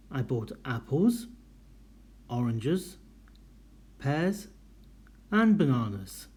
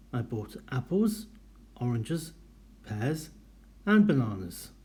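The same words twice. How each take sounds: First: Small pause at each comma, drop at the end; list intonation. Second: Each item rising, final and bananas falling; list intonation. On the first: Teacher models the comma pauses and the final fall. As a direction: rise on apples, oranges, pears, fall on and bananas. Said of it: "Can you hear the intonation at the end". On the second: Teacher demonstrating list intonation: rises, then a fall at the end. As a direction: read the list with a lift on each comma. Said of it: "we have commas separating each item". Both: Shown as a demonstration.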